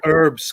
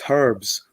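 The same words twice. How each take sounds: First: The word begins without any H sound. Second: The word begins with a clear H sound.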